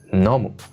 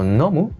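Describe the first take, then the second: First: The pitch falls at the end. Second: The pitch rises at the end. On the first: It is given as an answer. "cuando es respuesta baja" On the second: It is asked as a question. "cuando es pregunta, la entonación sube"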